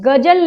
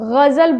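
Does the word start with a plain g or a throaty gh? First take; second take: plain g; throaty gh. First: It starts with a plain hard g sound. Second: It starts with a throaty, rasping gh sound. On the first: The speaker calls it wrong. "नहीं" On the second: The speaker calls it right. "ग पैर बिंदी वाले शब्द"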